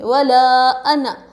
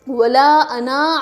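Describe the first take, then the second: First: The final vowel of ana is kept short. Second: The final vowel of ana is drawn out long. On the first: The speaker calls it right. "ये जो नून ज़बर ना है ना, वैसा पढ़ेंगे" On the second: The speaker calls it wrong. "ऐसा नहीं पढ़ेंगे, गलत हो जाएगा"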